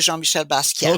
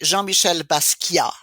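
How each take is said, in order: First: It is said with an American accent. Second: It is said with a French accent.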